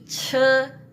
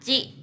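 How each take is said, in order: First: The vowel is a dull 'uh' sound. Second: The vowel is a clear 'ee' sound. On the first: The speaker calls it right. "tapi ce ya" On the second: The speaker calls it wrong. "Ini bukan ci bacanya ya"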